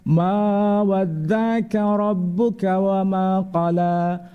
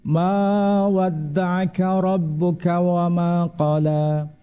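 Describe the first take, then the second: The two takes are said the same way.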